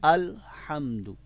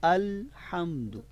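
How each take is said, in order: No difference in how they are said.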